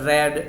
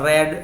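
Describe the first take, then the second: The two takes are said the same way.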